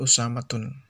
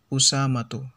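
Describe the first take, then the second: First: The name ends with an added n sound. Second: The name ends on a bare vowel. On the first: The speaker calls it wrong. "Bukan Usamatun" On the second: The speaker calls it right. "Usamatu, ya. Bukan Usamatun"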